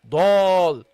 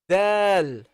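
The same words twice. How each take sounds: First: The letter is pronounced heavily. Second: The letter is pronounced lightly. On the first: The speaker calls it wrong. "Not Dal. Don't make it heavy" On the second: The speaker calls it right. "pronounce it lightly"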